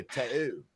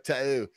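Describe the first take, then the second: First: Tattoo with a dropped, swallowed T; light Cockney tattoo; mock British tattoo. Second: Tattoo said with the T's dropped, glottal middle; mock a British speaker saying tattoo; teasing imitation of a London tattoo. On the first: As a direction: imitate a Londoner saying tattoo. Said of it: "You say tattoo". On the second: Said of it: "allow me to mock you".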